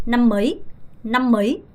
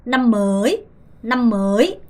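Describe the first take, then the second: First: "năm mới" with "mới" shortened, like mấy; brief "năm mới", fast rise on the last word; short-vowel reading. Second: "năm mới" with "mới" drawn out; slow "năm mới", late rise on "mới"; long-vowel reading. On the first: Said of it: "두 번째". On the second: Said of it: "첫 번째 거부터 읽어볼까요". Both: Shown as a demonstration.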